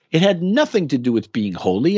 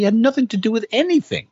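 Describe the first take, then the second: First: Said in the usual way. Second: Jumps much higher and faster on "anything"; rising emphatic dismissal; emphatic repeat. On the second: Real, not acted. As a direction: throw "anything" up high and quick for emphasis. Repeats the claim, then intensifies.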